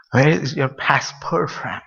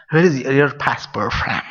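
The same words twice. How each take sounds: First: Slowed right down, word by word; slow motion. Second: Said in the usual way. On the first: Shown as a demonstration. Asked to repeat the passport question, in slow motion. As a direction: draw out "Where is your passport from" very slowly. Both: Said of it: "Say in slow motion".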